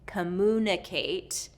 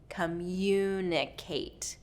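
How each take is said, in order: First: No 'y' glide sound follows the 'm'. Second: A 'y' glide sound follows the 'm'. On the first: "instead of communicate" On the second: "we're going to go commu, communicate"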